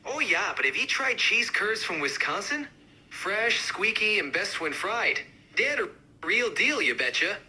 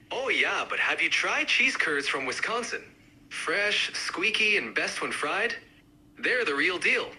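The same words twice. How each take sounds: First: Higher, more pronounced Wisconsin accent; amped-up Wisconsin accent. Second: Lightly done Wisconsin accent. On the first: Cheese curd fan countering others, amped-up Wisconsin accent. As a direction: push the Wisconsin sound. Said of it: "really amp up the accents". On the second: Cheese curd fan countering others, mild Wisconsin accent. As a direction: give it a hint of Wisconsin. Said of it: "each accent, uh, represented by a speaker". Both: Shown as a demonstration.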